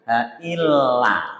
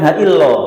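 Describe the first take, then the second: First: The last syllable ends in an open 'a' vowel. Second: The last syllable ends in a rounded 'o' vowel. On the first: The speaker calls it right. "Ini bukan lo tapi la" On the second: The speaker calls it wrong. "Bukan ha illo"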